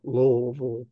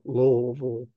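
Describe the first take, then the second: First: Every syllable of the name is said fully. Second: The same.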